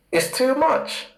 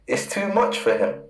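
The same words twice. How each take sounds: First: Leaps up high, rising like a pained cry; exclaiming. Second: Said in the usual way. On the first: Real, not acted. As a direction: throw the line up high in mock anguish. Preacher stresses Esau's judgment.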